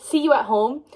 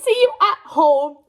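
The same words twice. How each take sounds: First: Said in the usual way. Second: Louder, each word given weight; meaningful emphasis. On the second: Retold or imitated. Reader savouring the hero's text, see you at home pressed louder. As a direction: lean into see you at home like it means everything. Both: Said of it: "No, he says".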